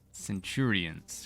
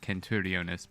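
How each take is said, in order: First: The word ends with the shorter '-ions'. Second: The word ends with an extra syllable, '-iones'. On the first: "the mispronunciation sounds better" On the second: "the correct pronunciation"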